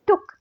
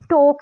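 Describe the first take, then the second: First: The vowel is short, close to 'oo'. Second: The vowel is a full, open 'oh'. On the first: The speaker calls it right. "ओ के बजाय में टुक" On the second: The speaker calls it wrong. "टोक नहीं"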